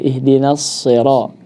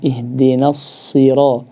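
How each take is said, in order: First: The vowel after s sounds slanted, like e. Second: The vowel after s is a clear i. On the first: The speaker calls it wrong. "kasrahnya ini jangan sampai uh, menjadi miring" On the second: The speaker calls it right. "yang benar"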